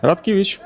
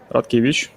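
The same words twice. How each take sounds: First: Name called high and bright with a rise; excited name call. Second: Said in the usual way. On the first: Real, not acted. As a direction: call the name as the play picks up. Live commentary, player gets ball. (возбуждённо выкрикнутое имя)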